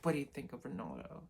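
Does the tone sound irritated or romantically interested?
irritated. It sounds irritated and annoyed.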